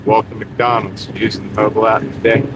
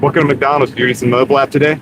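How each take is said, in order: First: It is said slowly. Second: It is said fast.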